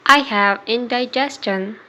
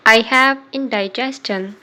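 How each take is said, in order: Both takes have the same delivery.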